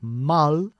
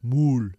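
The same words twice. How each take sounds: First: The vowel is an English short u sound. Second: The vowel is a Spanish u sound. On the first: The speaker calls it right. "The U is an English U" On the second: The speaker calls it wrong. "not a Spanish U"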